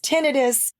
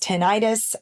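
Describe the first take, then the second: First: The stress is on the first syllable. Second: The stress is on the second syllable. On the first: The speaker calls it right. "The correct way to pronounce it is tinnitus" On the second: The speaker calls it wrong. "some people pronounce this tinnitus"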